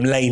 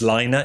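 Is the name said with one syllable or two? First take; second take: one; two. First: The name is said as one syllable. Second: The name is said as two syllables. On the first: This is the speaker's everyday way of saying it. "I always call them Lane magazine" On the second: This is the posher way of saying it. "the posh way of saying it is Liner"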